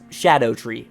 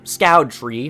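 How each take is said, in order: First: The name starts with sh and sounds like shadow. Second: The name sounds like the word scout. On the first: The speaker calls it right. "it's Shadow tree" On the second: The speaker calls it wrong. "no, it's not the Scout tree"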